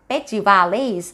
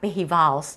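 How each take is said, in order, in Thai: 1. พยัญชนะตัวกลางออกเสียงเหมือน j ในภาษาอังกฤษ 2. พยัญชนะตัวกลางออกเสียงเหมือน h (1) "หนูตอนแรกนี่นึกว่าอ่านว่า" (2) "ออกเสียงเหมือนตัว, H, เนาะก็จะออกว่า"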